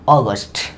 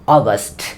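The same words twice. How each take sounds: First: The word is said with English pronunciation. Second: The same.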